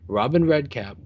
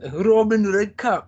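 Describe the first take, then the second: First: It is said in his ordinary reading accent. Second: It is said in a put-on Scottish accent.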